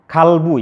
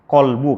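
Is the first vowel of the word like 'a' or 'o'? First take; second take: a; o. First: The first vowel sounds like a clear 'a'. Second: The first vowel sounds like a darker 'o'. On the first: The speaker calls it wrong. "Hati-hati jangan kalbu ya" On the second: The speaker calls it right.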